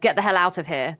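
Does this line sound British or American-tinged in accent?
British. The line is said in a steady British accent. "he says"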